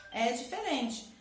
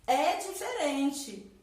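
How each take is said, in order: First: Said in the usual way. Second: Slow, louder stress on É diferente; emphatic repeat. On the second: Shown as a demonstration. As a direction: lean on É diferente to drive the point.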